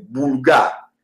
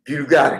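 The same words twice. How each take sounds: First: Boulgare said slowly with an ou sound; slow Romanian boulgare, not the French bulgare; Romanian pronunciation. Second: Said in the usual way. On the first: Shown as a demonstration. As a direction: give boulgare the Romanian ou, drawn out. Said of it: "en roumain cette fois-ci". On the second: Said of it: "là je prononce en".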